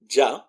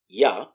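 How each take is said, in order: First: It begins with a j sound. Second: It begins with a y sound.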